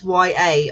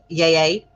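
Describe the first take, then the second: First: It is spelled out as two letter names. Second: It is said as a single word, 'yay'.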